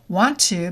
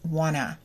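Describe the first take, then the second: First: The phrase is said in its full form. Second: The phrase is said in a reduced form.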